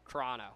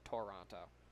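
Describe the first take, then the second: First: The first vowel is dropped. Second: The first vowel is fully pronounced. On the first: The speaker calls it right. "They dropped the first O" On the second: The speaker calls it wrong. "I was getting yelled at by my family for calling it Toronto"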